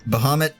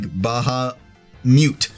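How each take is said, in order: First: The last syllable sounds like 'mutt'. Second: The last syllable sounds like 'mute'.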